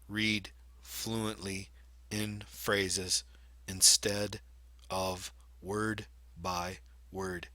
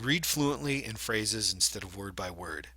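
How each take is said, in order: First: It is read haltingly, one word at a time. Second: It is read smoothly in two word groups. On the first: A poor reader is reading. The speaker calls it wrong. "A poor reader, on the other hand, might read it and it could sound something like this" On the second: A good reader is reading. The speaker calls it right. "I probably grouped group that whole thing into two groups of words"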